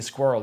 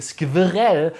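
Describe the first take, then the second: First: It is said with native English pronunciation. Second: It is said with a German accent. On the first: "most Germans for some reason cannot say squirrel" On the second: "They say squirrel"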